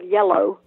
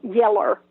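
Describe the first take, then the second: First: The word ends with an 'oh' sound. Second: The word ends with an 'er' sound. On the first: This is the usual way others say it. "instead of yellow" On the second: This is how the speaker talked growing up in South Georgia. "I said um, yeller"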